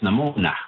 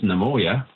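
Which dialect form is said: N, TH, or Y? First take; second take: N; Y. First: It is said with an N sound. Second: It is said with a Y sound.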